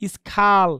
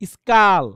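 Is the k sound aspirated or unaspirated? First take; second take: aspirated; unaspirated. First: The k after s has a puff of air. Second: The k after s has no puff of air. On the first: The speaker calls it wrong. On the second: The speaker calls it right.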